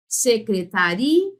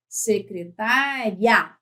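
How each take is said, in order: First: Slow "Secretaria", "ri" stressed and the I given full strength, rising. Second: Slow "Secretária", "tá" strong and "ria" one gliding syllable; "Secretária" with the I nearly swallowed, slowly; weak I, stress on tá. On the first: Teacher contrasting two words for students, slow demo with strong I. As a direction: say "Secretaria" giving the I its own strong beat. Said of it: "Como é que eu falo?". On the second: Teacher contrasting two words for students, slow demo with weak I. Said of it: "Veja como é que eu falo". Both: Shown as a demonstration.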